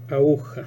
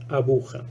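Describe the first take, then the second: First: The middle consonant is dropped between the vowels. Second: A new consonant sound appears between the vowels. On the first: "tiende a producirse una síncopa. Entonces tendríamos una posibilidad" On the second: "esta otra solución ... la aparición de un nuevo sonido"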